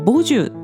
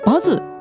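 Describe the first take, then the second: First: The name is said the Korean way, 'boju'. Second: The name is said the Japanese way, 'bazu'. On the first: "韓国語だとボジュと発音する" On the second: "日本語だとバズと読む"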